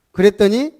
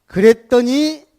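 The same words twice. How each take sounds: First: 그랬더니 said briskly and loud, ending in a rise; quick rising cue. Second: 그랬더니 stretched slowly, high and loud; drawn-out emphasis. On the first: Preacher quickly cues the next point, loud with a rise. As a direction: toss off 그랬더니 fast with an upward lilt. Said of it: "quicker repeat, rising". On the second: Preacher stretches 그랬더니 to build suspense, high and loud. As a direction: hold 그랬더니 out long and strong, pitched well up. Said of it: "drawn-out preaching emphasis". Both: Shown as a demonstration.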